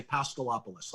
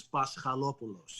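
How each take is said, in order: First: Paschalopoulos Anglicized as pas-kuh-LOP-uh-lus; English pronunciation. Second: Paschalopoulos with a Greek accent, stressed on LO. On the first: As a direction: say Paschalopoulos the English way, stress on LOP, reduced vowels. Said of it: "say it in an English way". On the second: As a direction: say Paschalopoulos the Greek way, pas-kha-LO-pu-los. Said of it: "say it in Greek with the Greek accent". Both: Shown as a demonstration.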